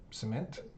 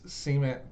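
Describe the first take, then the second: First: It is said the Pennsylvania way. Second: It is said the Oklahoma way. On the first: "People in Pennsylvania probably say cement" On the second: "That's how we say it in Oklahoma"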